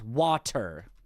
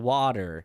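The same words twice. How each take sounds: First: The T in the middle is hard. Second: The T in the middle is soft. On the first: "not water" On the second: "we only soft pronounce the tea in water. We say water"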